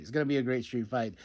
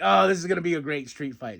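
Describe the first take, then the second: First: Softer echo. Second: Said in the usual way. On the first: Retold or imitated. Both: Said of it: "And I'm like".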